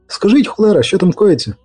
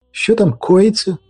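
First: High, exasperated question; pitched-up, impatient query; impatient demand. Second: Drawn-out, high-pitched query; wondering what's going on; puzzled question. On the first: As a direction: demand an answer, cursing. Impatient repeated question, with curse. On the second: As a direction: ask slowly in a raised voice. Onlooker asks about the commotion. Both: Acted.

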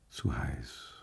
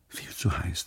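First: Much softer, lower, drowsy 'Zu heiß'; quiet murmur. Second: Whispered 'Viel zu heiß', breath only. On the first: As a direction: sink into the heat, barely voiced. (leise, tiefer gemurmelt, schläfrig) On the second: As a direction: let the thought slip out as a whisper. (geflüstert, nur Atem, schläfrig) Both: Acted. Inner thought, drowsy from wine.

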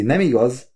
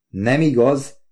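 First: Mildly pressing "nem igaz?"; insistent. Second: Higher, rising "Nem igaz?"; mildly surprised. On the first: Wife prods Oliver for agreement, mildly insistent. Tag question thrown at husband. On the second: Oliver echoes his wife's question, slightly surprised. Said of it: "kérdeztem kicsit csodálkozva". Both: A narrator's reading.

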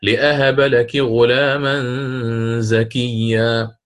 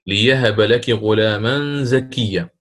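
First: Slow chanted recitation with لأهب; Qur'anic recitation. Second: ليهب said with a ya, recited slowly; ya instead of hamza. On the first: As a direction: recite لأهب with a clear hamza. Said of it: "في قوله تعالى". (ترتيل لأهب بالهمز) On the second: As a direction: chant ليهب with the ya. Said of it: "فقرأ". (ليهب بالياء) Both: Shown as a demonstration.

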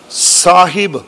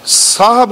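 First: ਸਾਹਿਬ in two clear syllables, saa-hib; correct sihari pronunciation. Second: ਸਾਹਿਬ run together as saab, without the hi; wrong reading demo. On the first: Preacher teaching how to recite the verse, ਸਾਹਿਬ said carefully as saa-hib. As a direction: sound a short i after the h in ਸਾਹਿਬ. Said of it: "ਹਾਹੇ ਨੂੰ ਸਿਹਾਰੀ ਬੋਲਣੀ ਹੈ". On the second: Preacher warning reciters against a misreading, ਸਾਹਿਬ slurred to saab. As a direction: drop the short i in ਸਾਹਿਬ, saa-ab. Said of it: "ਸਾਹਿਬ ਨਹੀਂ ਪੜ੍ਹਨਾ". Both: Shown as a demonstration.

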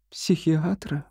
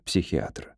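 First: High, hushed questioning «Психиатра?»; shocked echo. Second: Low, soft falling «психиатра»; gentle suggestion. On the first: Wife repeats doctor's suggestion, shocked. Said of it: "Этель потрясённо поднесла ладони". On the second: Doctor cautiously suggests it to wife, gently. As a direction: drop «психиатра» low and quiet. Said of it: "сказал он мягко". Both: A narrator's reading.

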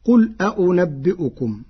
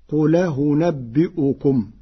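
First: قل أأنبئكم with both hamzas fully stopped; standard reading. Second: قل أنبئكم with the hamza vowel carried onto the L, second hamza eased; Warsh reading. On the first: Teacher quoting the verse before Warsh's version, both hamzas crisp. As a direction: recite قل أأنبئكم with two clear glottal stops. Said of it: "قرأ ورش كلمتي". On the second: Teacher demonstrating Warsh's eased hamza in قل أنبئكم, slow. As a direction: say قل أنبئكم slowly, gliding qul-a-unabbi'ukum. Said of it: "بنقل حركة الهمزة المفتوحة إلى الساكن". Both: Shown as a demonstration.

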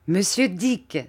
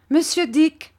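First: Said in the usual way. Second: Calls the name high and loud, rising; sharp raised call to Mr Dick; aunt calling out. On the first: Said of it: "dit ma tante d'un air de triomphe". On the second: A narrator's reading. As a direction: summon Mr Dick across the room. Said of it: "dit ma tante".

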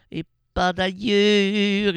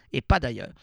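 First: Et pas d'ailleurs stretched out slowly and loudly; slow drawn-out cry. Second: Said in the usual way. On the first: Shown as a demonstration. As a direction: drag out d'ailleurs like a mock cry. (et pas d'ailleurs étiré lentement, en faux cri) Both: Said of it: "Même si je crie".

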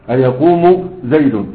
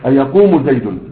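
First: أيقوم زيد said slowly, every syllable and case ending spelled out; slow careful reading. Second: Said in the usual way. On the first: Shown as a demonstration. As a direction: read أيقوم زيد slowly with full vowel endings, like a teacher.

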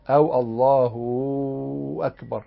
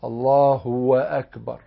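First: الله said with the ha joined to a drawn waw, slowly; added waw. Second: Said in the usual way. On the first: Shown as a demonstration. Teacher showing the added-waw error, slow drawn waw. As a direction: stretch the ha of الله into a waw before أكبر. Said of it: "يعني يوصل الهاء بواو". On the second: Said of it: "ولا يزيد واوا".

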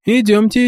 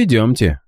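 First: High, rising eager call. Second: Said in the usual way. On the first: A narrator's reading. Boy agreeing to lead the count, eager high rise. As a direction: jump at the offer.

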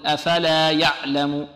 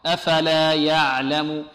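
First: أفلا يعلم with the ع given a hard stop; يعلم said with the ع cut short and hard; wrong pronunciation. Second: أفلا يعلم with the ع of medium length, slow; correct pronunciation. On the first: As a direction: demonstrate the mistake of a tense ع in يعلم. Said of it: "خطأ". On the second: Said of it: "العين ... هي متوسطة". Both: Shown as a demonstration.

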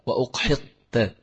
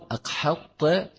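First: أقحطت with an opening "u": uqhitta; damma on the hamza. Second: أقحطت with an opening "a": aqhatta; fatha on the hamza. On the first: Teacher showing both readings of a hadith word, damma form uqhitta. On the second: Teacher showing both readings of a hadith word, fatha form aqhatta. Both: Shown as a demonstration. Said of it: "بضم الهمزة أو بفتحها".

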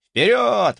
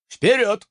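First: High loud cheering forward; rally them with joy; excited cheer. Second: Shouted command. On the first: Excited viewer chat message. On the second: Chief orders scouts forward. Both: Acted.

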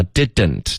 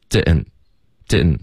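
First: Said in the usual way. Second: "didn't" with the middle d swallowed, like "di-in't"; reduced didn't. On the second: Shown as a demonstration. Teacher showing learners the linked form, "didn't" reduced to "di-n't". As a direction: squash "didn't" into one loose run, lower. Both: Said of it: "把didn't就直接发成".

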